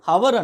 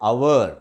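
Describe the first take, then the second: First: The word starts with an h sound. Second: The word starts with a vowel sound. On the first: The speaker calls it wrong. "హవర్ హవర్ అంటారు" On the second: The speaker calls it right. "Correct pronunciation అంటే అవర్ ... హెచ్ silent ఇక్కడ"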